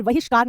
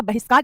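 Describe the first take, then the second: First: बहिष्कार as "vahishkaar"; wrong pronunciation. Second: बहिष्कार as "bahishkaar"; correct pronunciation. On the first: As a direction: start बहिष्कार with v. (गलत उच्चारण, बहिष्कार को वहिष्कार बोलें) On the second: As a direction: start बहिष्कार with b. (सही उच्चारण, बहिष्कार के शुरू में ब) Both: Shown as a demonstration. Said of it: "बहिष्कार नहीं होता".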